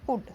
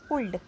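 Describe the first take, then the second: First: The L sound is left silent in the word. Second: The L sound is pronounced in the word. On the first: The speaker calls it right. "ये एल silent है, इसे पढ़ते हैं कुड।" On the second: The speaker calls it wrong. "उनको ये नहीं पता होता इसमें एल साइलेंट है, तो उसको ये क्या पढ़ेंगे?"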